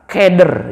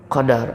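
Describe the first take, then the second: First: The vowels are fronted toward 'e' sounds. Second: The vowels are open 'a' sounds. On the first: The speaker calls it wrong. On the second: The speaker calls it right.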